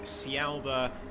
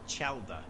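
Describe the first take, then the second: First: The name begins with an 's' sound. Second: The name begins with a 'ch' sound. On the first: The speaker calls it wrong. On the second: The speaker calls it right.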